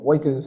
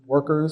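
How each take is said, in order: First: It is said in a Brooklyn accent. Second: It is said in a standard accent.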